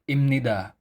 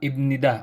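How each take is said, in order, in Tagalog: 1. Ang gitnang katinig ay nasal na tunog m. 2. Ang gitnang katinig ay simpleng tunog b. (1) "bakit imnida ang pagbasa nito?" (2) "Hindi ba ibnida ang tama?"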